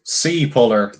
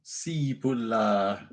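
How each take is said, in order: First: "Sea puller" in a put-on accent, falling at the end. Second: Slow, soft, drawn-out "Sea puller"; careful first try. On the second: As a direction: sound out "Sea puller" slowly and quietly. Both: Shown as a demonstration. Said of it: "I actually did get the accent there that time".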